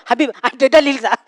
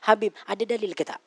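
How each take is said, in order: First: The question is asked loudly and aggressively. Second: The question is asked quietly and politely. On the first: The speaker is challenging and threatening. The speaker calls it wrong. "Bukan macam tu" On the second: The speaker only wants to know. The speaker calls it right. "rendahkan suara"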